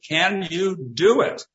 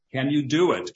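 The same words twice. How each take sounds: First: "Can you do it?" higher, louder and slower, pressing on "do"; insistent repeat. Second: Said in the usual way. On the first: A narrator's reading. Ricky pressing Robinson for an answer, insistent and emphatic. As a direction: press the question home a second time. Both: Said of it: "Ricky asked over and over again".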